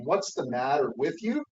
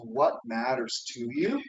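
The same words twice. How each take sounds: First: Said in the usual way. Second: "What matters to you?" slow, weight on "matters"; "What matters to you?" lent, appuyé sur "matters"; stress on matters. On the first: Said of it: "flip that story from". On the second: Shown as a demonstration. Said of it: "it's a couple different words".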